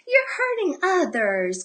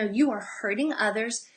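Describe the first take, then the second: First: It is said in a light, playful tone. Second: It is said in a firm, serious tone. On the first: The speaker is only half in earnest. The speaker calls it wrong. "we say it in a playful voice like" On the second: The behavior must stop now. The speaker calls it right. "it needs to be like, no"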